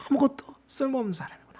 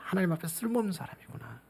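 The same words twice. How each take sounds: First: 아무것도 쓸모없는 사람이구나 pitched much higher and fast; a sudden cry of self-recognition; high rushed realization. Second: 쓸모없는 사람이구나 repeated much softer; a hushed confession after the outburst; soft humbled echo. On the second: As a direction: sink into it quietly before God. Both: Shown as a demonstration.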